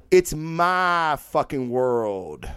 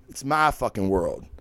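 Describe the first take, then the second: First: It's my fucking world drawn out slowly, weight on it's; slow emphatic declaration. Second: Said in the usual way. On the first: Shown as a demonstration. Host declaring his mic is his kingdom, slow and emphatic.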